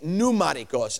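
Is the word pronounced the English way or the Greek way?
English. The word is said with an English pronunciation. "English speakers say"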